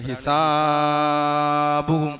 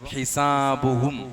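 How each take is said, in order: First: The long vowel is stretched well beyond two counts. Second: The long vowel is held for only two counts. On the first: The speaker calls it wrong. "ഒരാള് ഹിസാബുഹും എന്ന് ഓതിയാൽ അത് തെറ്റാണ്" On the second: The speaker calls it right. "രണ്ട് ഹർക്കത്തിന്റെ അളവിലേ നീട്ടാൻ പാടുള്ളൂ"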